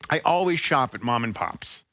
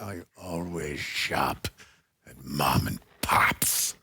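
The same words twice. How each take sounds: First: It is said in a plain, ordinary way. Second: It is said in a dramatic way.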